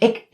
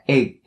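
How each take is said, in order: First: The syllable ends in a k sound. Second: The syllable ends in a stopped g sound. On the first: The speaker calls it wrong. "don't ever say ik" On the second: The speaker calls it right. "make sure that you have the g sound right there"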